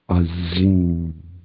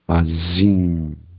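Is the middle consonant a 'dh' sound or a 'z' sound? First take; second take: z; z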